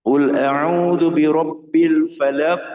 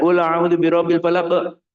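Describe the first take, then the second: First: Slow, high, chanted Quran verse; sung, give each syllable its full, unhurried length; sung, measured recitation. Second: Hurried, high chant of the verse; wrongly timed recitation. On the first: Teacher shows students a suitable reading tempo, measured chant. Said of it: "mengatur tempo membaca yang sesuai". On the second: Teacher shows students an unsuitable tempo, rushed recitation. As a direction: rush through the verse on one high tone. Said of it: "ritmenya tidak sesuai". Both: Shown as a demonstration.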